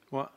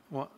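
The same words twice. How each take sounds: The two takes are said the same way.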